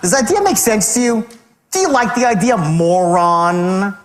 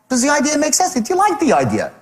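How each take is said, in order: First: It sounds condescending and insulting. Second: It sounds casual and genuinely curious.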